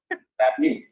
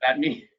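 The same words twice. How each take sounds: First: Reverberating echo on the line. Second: Said in the usual way. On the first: Real, not acted. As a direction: voice bouncing back with echo. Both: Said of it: "you, you reverberated".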